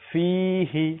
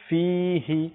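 Both takes have the same delivery.

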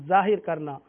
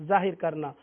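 Both takes have the same delivery.

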